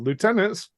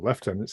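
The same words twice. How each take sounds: First: The word is said with a non-British pronunciation. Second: The word is said with a British pronunciation.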